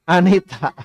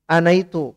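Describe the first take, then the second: First: It is said the Indonesian way, as Anita. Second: It is said with Arabic vowels, as anaytu.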